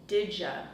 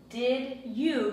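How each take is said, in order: First: The words blend into one reduced sound. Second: Both words are said fully and separately.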